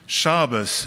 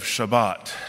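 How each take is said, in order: First: It uses the older, Brooklyn-style Hebrew pronunciation. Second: It uses the modern Israeli Hebrew pronunciation. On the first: "still spoke Hebrew with the older pronunciation" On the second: "instead of"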